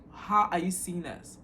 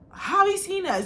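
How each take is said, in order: First: Slow, deliberate repeat of someone's words; quoting back pointedly. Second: High-pitched, retold disbelief; startled question. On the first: Retold or imitated. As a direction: spell out their slip, slowly. Quotes her words back to her. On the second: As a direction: imitate someone caught out, pitched high. Girl caught out, retold.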